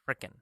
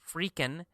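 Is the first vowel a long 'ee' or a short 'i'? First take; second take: short i; long ee. First: The first vowel is a short 'i' sound. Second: The first vowel is a long 'ee' sound. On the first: "or it can be pronounced frickin'" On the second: "it can be pronounced free, freakin'"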